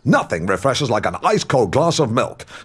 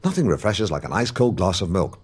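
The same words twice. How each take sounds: First: The line is spoken with forceful, punchy energy. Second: The line is spoken at a quick pace. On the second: "Say it faster"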